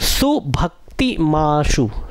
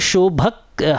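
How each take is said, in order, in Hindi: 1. पहला अक्षर 's' ध्वनि से शुरू होता है। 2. पहला अक्षर 'sh' ध्वनि से शुरू होता है। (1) "उसको मैंने करेक्ट कर दिया" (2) "कई बार ऐसा होता है, निकल आता है"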